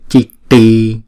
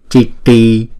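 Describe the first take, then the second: Both takes have the same delivery.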